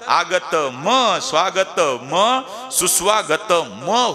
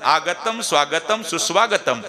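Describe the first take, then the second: First: Each final m carries a short vowel after it. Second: Each final m ends bare, with no vowel after. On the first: "त्यात जर स्वर टाकला तर" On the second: "शेवटचं म लंगड झालं"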